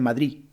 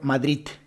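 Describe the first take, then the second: First: The final D is dropped completely. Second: The word ends with a T sound. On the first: "Muchas personas dicen Madrid" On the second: "en vez de utilizar la D, utilizar la T"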